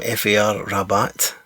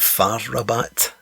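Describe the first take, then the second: First: F A R said letter by letter; spelled-out letters. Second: Far said as one syllable; read as a word. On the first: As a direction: spell out F A R before Rabat. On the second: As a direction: say Far as a single word before Rabat. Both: Shown as a demonstration. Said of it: "Or is it Far Rabat?".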